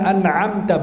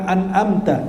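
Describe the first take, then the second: First: An'amta with a squeezed throat ain after the n. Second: An'amta as "an-amta", plain vowel; without ain. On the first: Preacher modelling the verse, an'amta with a throaty ain. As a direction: say an'amta slowly, the ain distinct. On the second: Preacher showing what not to say, an'amta without the ain. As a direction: say an'amta slowly with no throat squeeze. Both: Shown as a demonstration. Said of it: "bukan an'amta".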